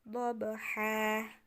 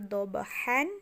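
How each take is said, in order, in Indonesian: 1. Kata ini berakhir dengan bunyi a panjang. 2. Kata ini berakhir dengan vokal ditambah n. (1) "jadinya dhabha" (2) "bukan lagi dhabhan"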